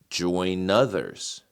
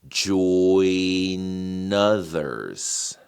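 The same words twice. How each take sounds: First: It is said at a medium speed. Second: It is said at a slow speed.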